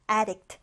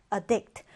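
First: ADdict, stressed on the AD; stress on first syllable. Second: AdDICT, stressed on the DICT; stress on second syllable. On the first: Teacher shows students the noun form, front stress on addict. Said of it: "앞음절에 강세가 와서요". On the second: Teacher shows students the verb form, back stress on addict. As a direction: say "addict" as a verb, weak first vowel, strong second. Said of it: "뒤듬절에 강세가 와요". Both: Shown as a demonstration.

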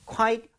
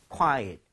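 First: "quite" as a single "kwite"; one-syllable quite. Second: "quiet" as "kwa-et"; two-syllable quiet. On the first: ("quite"를 '콰이트' 한 음절로 발음) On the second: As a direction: split "quiet" into two vowels. ("quiet"를 '콰-엇' 두 음절로 발음) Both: Shown as a demonstration. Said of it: "발음 한번 해볼게요".

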